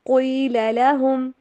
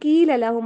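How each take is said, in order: First: The first word starts with a deep throat q sound. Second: The first word starts with a plain k sound. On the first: The speaker calls it right. "क़ील क़ील लहुम" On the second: The speaker calls it wrong. "इसको कील लहुम आपने नहीं पढ़ना, कील नहीं है ये"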